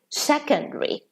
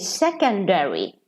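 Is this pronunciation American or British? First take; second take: British; American. First: It is said with a British pronunciation. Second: It is said with an American pronunciation. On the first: "In British English, they say" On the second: "In American English ... they would say"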